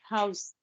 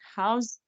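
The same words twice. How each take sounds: First: The word ends with an s sound. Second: The word ends with a z sound. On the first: It names a building. "House as a noun" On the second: It means to give shelter. "house as a verb"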